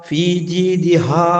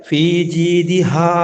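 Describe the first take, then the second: The two takes are said the same way.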